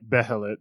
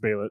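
First: The h in the middle is pronounced. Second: The h in the middle is silent. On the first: The speaker calls it wrong. "it's spelled like Behelit" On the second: The speaker calls it right. "but I think it's Behelit"

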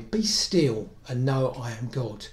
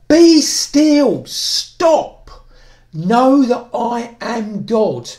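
First: It is said in a gentle, soft tone. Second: It is said in a firm, commanding tone.

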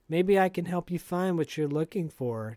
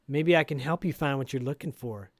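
First: It sounds mild, not very annoyed. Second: It sounds pointed and annoyed.

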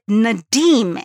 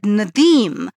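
First: The D in the name sounds hard. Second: The D in the name sounds soft. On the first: The speaker calls it wrong. "Others said Nadim" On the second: The speaker calls it right. "you said Nadim"

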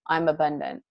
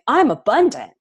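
First: It is said flatly, without energy. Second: It is said with rising energy.

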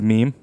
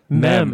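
First: It rhymes with 'team', with a long vowel. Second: It rhymes with 'gem', with a short vowel. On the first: The speaker calls it right. "Mem instead of meme" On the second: The speaker calls it wrong. "I used to say mem"

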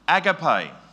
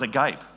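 First: It uses the church pronunciation of the Greek word. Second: It uses the everyday English pronunciation. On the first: It means love from God the Father. "for any churchy out there, my immediate idea was that it's probably agape" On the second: It means open-mouthed in astonishment. "it was agape. This idea of being, he was agape"

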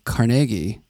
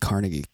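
First: It is said the way locals say it. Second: It is said the way outsiders say it. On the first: This is how people from the town say it. The speaker calls it right. "That's how we say it" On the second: People from the town do not say it this way. The speaker calls it wrong. "We don't say Carnegie"

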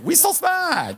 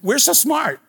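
First: It is said like Jar Jar Binks. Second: It is said in his normal voice.

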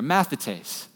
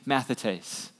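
First: It is said loudly, with strong energy. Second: It is said calmly, with normal energy.

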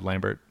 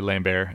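First: The name is said with an English-style pronunciation. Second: The name is said with a French-style pronunciation. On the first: "instead of Lambert" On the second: "if you were to defend the streets of Montreal at night, you would go by Lambert"

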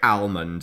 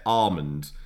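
First: The L is pronounced clearly and strongly. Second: The L is not pronounced at all. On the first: "some people say almond and hit the hard L" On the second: "completely miss the hard L out altogether"

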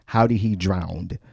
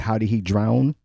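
First: The last word ends with an added d sound. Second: The last word ends without an added d sound. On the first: This imitates how the other person said it. The speaker calls it wrong. "You said it that way" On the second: This is the form the speaker thinks is correct. The speaker calls it right. "But wouldn't it be"

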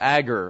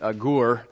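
First: The stress is on the first syllable. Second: The stress is on the last syllable.

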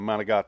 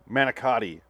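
First: The word is clipped, in an Italian-American accent. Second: The word is said in full, as in plain English. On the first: "We're still doing this Sopranos voice around the house" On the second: "as it's spelled"

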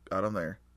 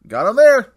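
First: It is said with the least energy. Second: It is said with somewhat less energy.

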